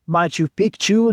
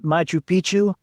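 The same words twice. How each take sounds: First: Picchu has a k sound before chu. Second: Picchu has no k sound before chu. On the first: It names the old mountain. The speaker calls it right. "they do teach you to say" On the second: It sounds like a rude word for old penis. The speaker calls it wrong.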